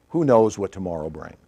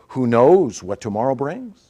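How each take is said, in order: First: The pitch falls at the end. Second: The pitch rises at the end. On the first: It is stated as a fact. "or whether you go down at the end" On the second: It is asked as a question. "whether you go up at the end"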